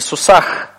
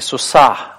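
First: The final sound is a harsh, scraping kh. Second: The final sound is a soft, faint breath. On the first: The speaker calls it wrong. "Это не то же самое, что в русском языке буква х. То есть это не сусах" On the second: The speaker calls it right. "Хе у нас передает звук гораздо более мягкий"

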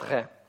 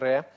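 First: The r is made far back in the throat. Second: The r is trilled with the tongue tip. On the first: This is how people commonly say it in everyday speech. "евреи говорят «ре»" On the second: This is the pronunciation taught to broadcasters. "то есть считается в современном Израиле более правильным произношение просто «ре»"

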